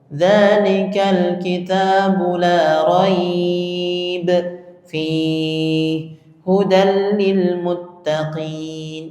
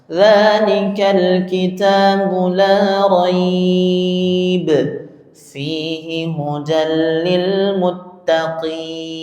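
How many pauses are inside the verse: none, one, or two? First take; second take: two; one. First: There are two pauses inside the verse. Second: There is one pause inside the verse. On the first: The speaker calls it wrong. "Kalau berhenti di kedua-duanya malah tidak boleh... Itu cara baca yang keliru" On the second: The speaker calls it right. "itu cara baca yang tepat, memilih di salah satu"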